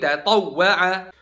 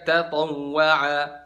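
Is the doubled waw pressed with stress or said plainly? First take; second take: pressed; plain. First: The doubled waw is pressed with clear stress. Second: The doubled waw is said without stress pressure. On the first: The speaker calls it right. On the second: The speaker calls it wrong.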